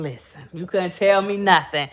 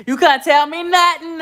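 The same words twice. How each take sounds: First: Said in the usual way. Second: Higher and louder, punching "nothing"; proud boast, voice jumping up on "nothing"; "You couldn't tell me nothing" hyped up and loud; excited brag. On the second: Real, not acted. Bragging about new car.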